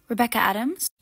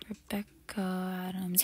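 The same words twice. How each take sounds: First: Said in the usual way. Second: Slow whispered name; whispered repeat. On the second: Acted. Doorman softly repeating the guest's name while checking.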